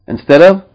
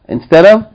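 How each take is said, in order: The two takes are said the same way.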